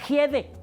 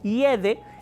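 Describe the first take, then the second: First: The first sound is a harsh j sound. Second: The first sound is silent, with no consonant.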